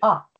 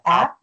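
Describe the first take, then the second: First: The vowel sounds Finnish, not like English 'app'. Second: The vowel sounds like English 'app'. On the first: The speaker calls it right. "but it's Willy Up" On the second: The speaker calls it wrong. "It's not app like in English"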